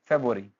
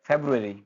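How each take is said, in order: Both takes have the same delivery.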